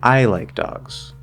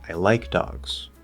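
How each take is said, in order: First: The word I is highest and most stressed. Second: The word like is highest and most stressed. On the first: "I as the focus word" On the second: "if I shift the focus word to like"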